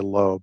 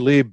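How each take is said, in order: First: The name is said with an 'oh' vowel. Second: The name is said with an 'ee' vowel. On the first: This is how most people pronounce the name. "most people would say Loeb" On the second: This is how a neighbor pronounced the name. "I say Lieb because we had a neighbor, and that's how he pronounced it"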